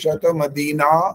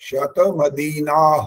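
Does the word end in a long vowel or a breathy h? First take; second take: long vowel; breathy h. First: The word ends in a plain long aa vowel. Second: The word ends with a breathy h sound. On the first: "पहले आ की मात्रा वाला" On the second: "अब विसर्ग का"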